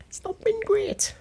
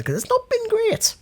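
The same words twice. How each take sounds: First: Breathy high whisper. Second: Squeaky high-pitched aside. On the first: Shown as a demonstration. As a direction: whisper it as an aside. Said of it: "repeat whispered". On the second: Pretend. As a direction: pipe it up like a cartoon. Ironic aside, high far voice.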